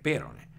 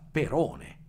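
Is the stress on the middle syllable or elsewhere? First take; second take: elsewhere; middle. First: The stress falls off the middle syllable. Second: The stress falls on the middle syllable. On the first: This follows a Latin reading. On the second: This follows the Greek accent. "l'accento è sulla second'ultima eh, sillaba"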